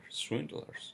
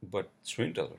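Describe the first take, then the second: First: High breathless swindlers with a rise; whispered outrage, voice jumping up; incredulous whisper. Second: Said in the usual way. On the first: Real, not acted. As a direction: spit swindlers out in disbelief. Ranting about swindling mechanics.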